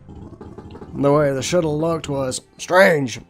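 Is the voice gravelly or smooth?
gravelly. The voice is rough and gravelly. The speaker calls it wrong. "I am already regretting giving everybody gravelly voices"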